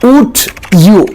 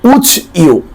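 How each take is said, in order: First: The d and y sounds stay separate. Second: The d and y blend into a j sound.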